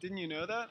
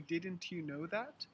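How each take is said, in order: First: The T in didn't is dropped. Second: The T in didn't is pronounced. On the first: This is casual conversational speech. "we have something called the silent T" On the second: This is formal speech. "in formal English"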